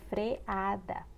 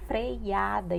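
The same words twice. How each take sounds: First: Freada split cleanly, "fre-A-da"; correct pronunciation. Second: Freada with a glide, "frei-A-da"; common mispronunciation. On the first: Teacher giving the right form, freada as "fre-A-da". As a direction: say freada with no I glide. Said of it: "em vez de freada". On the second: Teacher showing what some people say, freada as "freiada". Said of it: "algumas pessoas falam". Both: Shown as a demonstration.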